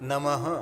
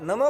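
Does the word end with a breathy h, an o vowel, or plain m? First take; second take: breathy h; plain m. First: The word ends with a breathy h sound. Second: The word ends abruptly on the m sound. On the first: The speaker calls it right. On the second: The speaker calls it wrong. "નમ નમ પણ નહીં"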